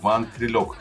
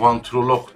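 First: The word ends with a k sound. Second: The word ends with a g sound. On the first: The speaker calls it right. "Aslında sonu K'dir yani" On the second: The speaker calls it wrong. "herkes G olarak e, söylediği için"

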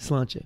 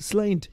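First: The word ends with a 'cha' syllable. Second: The word ends abruptly with a 't' sound. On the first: The speaker calls it right. "what's the actual proper way to say it?" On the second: The speaker calls it wrong. "They go"

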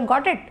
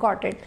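First: It is said as a question. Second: It is said as a statement answer.

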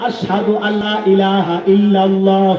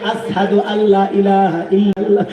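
First: The phrase is articulated clearly and fully. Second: The phrase is articulated as if by a damaged tongue. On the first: This is the standard call to prayer. The speaker calls it right. "আজানটা হলো" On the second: The speaker's tongue was injured. The speaker calls it wrong. "কিন্তু বেলাল কয় ... এখন আজান দিলে শুদ্ধ হয় না"

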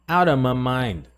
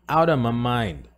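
No difference in how they are said.

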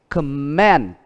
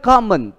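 First: The stress is on the second syllable. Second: The stress is on the first syllable. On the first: It is used as a verb. "còn động từ của nó đó là comment" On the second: It is used as a noun. "Nhưng comment đó là danh từ"

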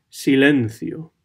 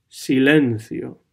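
The two takes are said the same way.

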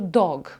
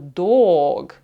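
First: The vowel is kept short. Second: The vowel is drawn out long. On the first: The speaker calls it right. "я кажу dog" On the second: The speaker calls it wrong. "я не кажу dog"

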